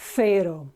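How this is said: The word begins with a 'th' sound. This is the European Spanish pronunciation. "T H sound as in Thursday"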